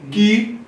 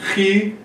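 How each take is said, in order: First: It begins with a plain hard k sound. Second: It begins with a breathy, aspirated h-like sound. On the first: A simplified form some speakers use. "eles simplificam e pronunciam só Ki" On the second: The usual form of the letter name. "Quando tem um K com H aqui, ele é aspirado. Então, geralmente é Ri"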